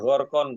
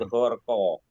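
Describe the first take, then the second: First: The word ends with an n sound. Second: The word ends on an open vowel. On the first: The speaker calls it wrong. "Jadi bukan gharqan" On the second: The speaker calls it right. "Secara tajwid gharqa"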